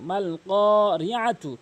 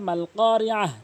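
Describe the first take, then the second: First: The word ends with a full tu sound. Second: The word ends with a soft h sound. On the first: The reading continues without stopping. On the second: The reader stops at this word.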